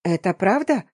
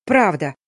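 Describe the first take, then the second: First: Tentative question, rising at the end; hesitant babble. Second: Curt, falling confirmation; barked. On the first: Stepsister hearing heroine is married, faltering question. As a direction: ask it in hopeful disbelief. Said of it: "сестра пролепетала". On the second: Heroine confirming her marriage to stepsister, curt bark. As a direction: confirm it firmly, with irritation. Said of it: "рявкнула я". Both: A narrator's reading.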